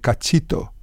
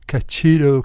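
First: The last consonant is a T sound. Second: The last consonant is an R sound. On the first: The speaker calls it right. "instead of saying cachito" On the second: The speaker calls it wrong. "That's why he say cachiro"

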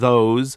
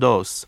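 First: The word begins with a th sound. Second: The word begins with a d sound. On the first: The speaker calls it right. "instead of saying" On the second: The speaker calls it wrong. "Spanish frequently substitutes a D or a T"

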